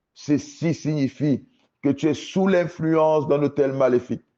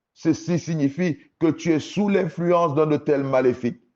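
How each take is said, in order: The two takes are said the same way.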